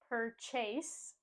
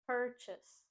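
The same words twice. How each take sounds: First: The stress is on the second syllable. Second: The stress is on the first syllable. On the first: The speaker calls it wrong. "We don't say purchase and put the stress on the second syllable" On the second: The speaker calls it right. "we put the stress on the first syllable"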